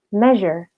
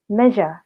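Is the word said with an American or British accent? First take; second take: American; British. First: It has an American accent with a light final R. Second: It has a British accent with no final R. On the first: "untuk American style-nya ... huruf R-nya itu nggak dibaca terlalu tebal" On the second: "untuk versi British-nya ... huruf R-nya hilang"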